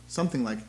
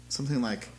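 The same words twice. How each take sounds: Both takes have the same delivery.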